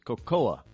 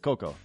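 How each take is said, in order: First: The word is said in a careful, fuller way. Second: The word is said in a relaxed, shortened way. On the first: This is the proper way of saying it. The speaker calls it right. "but it's cocoa, C-O-C-O-A" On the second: This is the lazy common way of saying it. The speaker calls it wrong. "Americans got lazy. Just say cocoa"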